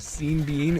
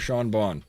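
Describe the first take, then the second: First: Both names are said with the 'bean' vowel. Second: Both names are said with the 'on' vowel. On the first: "which could be pronounced scene if you pronounce it the same way as bean"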